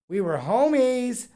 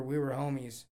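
First: Louder, higher, slower "homies"; emphatic repeat. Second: Said in the usual way. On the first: Real, not acted. Host to viewers, drawn-out emphatic "homies". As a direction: stretch out "We were homies" with pride.

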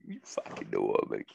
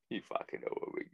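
First: Lower, voiced take of the line. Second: Whispered. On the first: To his listeners, a low growled repeat. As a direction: drop your voice low and drag it. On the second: To his listeners, a whispered aside. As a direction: whisper it, unvoiced and soft. Repeats catchphrase in varied voices. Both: Real, not acted.

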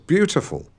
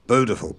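First: "beautiful" as "byoo-tiful", pitched up; standard pronunciation. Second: "beautiful" as "boo-tiful", no y; yod-dropped pronunciation. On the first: Shown as a demonstration. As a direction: keep the y in "beautiful", correcting. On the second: Retold or imitated. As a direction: drop the y from "beautiful". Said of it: "every time he said".

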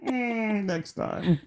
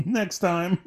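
First: Even higher, giggling next time; higher laughing echo. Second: High, laughing repeat of next time; laughing mock echo. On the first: Retold or imitated. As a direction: laugh harder, falling at the end. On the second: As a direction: laugh while echoing the phrase. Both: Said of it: "and we'll see you next time".

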